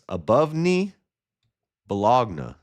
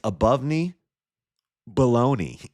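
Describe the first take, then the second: First: The last word is said as bo-log-na. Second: The last word is said as baloney. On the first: The speaker calls it wrong. "I don't get it" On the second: The speaker calls it right. "Just kidding. It's above knee, baloney"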